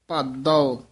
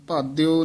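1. ਇਹ ਬਿਨਾਂ ਗਲਾਈਡ ਦੇ ਸਾਦੇ 'o' ਨਾਲ ਖਤਮ ਹੁੰਦਾ ਹੈ। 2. ਇਹ 'o' ਤੋਂ ਪਹਿਲਾਂ 'i' ਗਲਾਈਡ ਨਾਲ ਖਤਮ ਹੁੰਦਾ ਹੈ। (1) "ਇਸ ਤਰ੍ਹਾਂ ਉਚਾਰਨ ਕਰਨਾ" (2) "ਭਾਦਿਓ ਨਹੀਂ ਕਹਿਣਾ"

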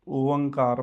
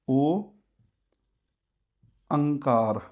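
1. ਨਾਸਿਕ ਧੁਨੀ ਸ਼ੁਰੂਆਤੀ ਓ ਅੱਖਰ ਨਾਲ ਜੁੜਦੀ ਹੈ। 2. ਓ ਇਕੱਲਾ ਰਹਿੰਦਾ ਹੈ; ਨਾਸਿਕ ਧੁਨੀ ਕਾਰ ਨਾਲ ਜੁੜਦੀ ਹੈ। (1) "ਕਈ ਵਾਰ ਨਾ ਅਸੀਂ ਇਸ ਦਾ ਉਚਾਰਨ ਕਰਦੇ ਇਦਾਂ ਹੀ ਆ" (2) "ਵੱਖਰੇ ਤਰੀਕੇ ਨਾਲ ਇਹਨੂੰ ਕਈ ਇਦਾਂ ਪੜ੍ਹਦੇ ਹੁੰਦੇ ਆ ... ਇਹ ਗਲਤ ਹੈ"

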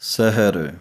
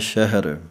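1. ਸ਼ਬਦ ਸਾਧਾਰਨ s ਦੀ ਆਵਾਜ਼ ਨਾਲ ਸ਼ੁਰੂ ਹੁੰਦਾ ਹੈ। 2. ਸ਼ਬਦ sh ਦੀ ਆਵਾਜ਼ ਨਾਲ ਸ਼ੁਰੂ ਹੁੰਦਾ ਹੈ।

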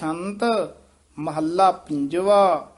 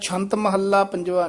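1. ਪਹਿਲੇ ਸ਼ਬਦ ਤੋਂ ਬਾਅਦ ਠਹਿਰਾਅ ਹੈ। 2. ਸ਼ਬਦ ਬਿਨਾਂ ਠਹਿਰਾਅ ਦੇ ਇਕੱਠੇ ਚੱਲਦੇ ਹਨ। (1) "ਇੱਥੇ ਠਮਕ ਲਾ ਦੇਣੀ ਹੈ" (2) "ਛੰਤ ਮਹੱਲਾ ਪੰਜਵਾ ਨਹੀਂ ਕਹਿਣਾ"

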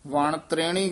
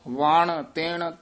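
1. ਦੂਜੇ ਸ਼ਬਦ ਵਿੱਚ ਤ ਤੋਂ ਬਾਅਦ ਰ ਹੈ। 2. ਦੂਜੇ ਸ਼ਬਦ ਵਿੱਚ ਤ ਤੋਂ ਬਾਅਦ ਰ ਨਹੀਂ ਹੈ। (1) "ਆਮ ਕਈ ਵਾਰ ਅਸੀਂ ਵਣ ਤ੍ਰੇਣੀ ਕਹਿ ਜਾਂਦੇ ਆ" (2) "ਇੱਥੇ ਤੇਣ ਪਾਠ ਹੈ"

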